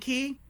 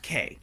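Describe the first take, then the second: First: The word rhymes with 'see'. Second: The word rhymes with 'say'. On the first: "is it key like lock and key?" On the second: "Or is it pronounced K, like my aunt?"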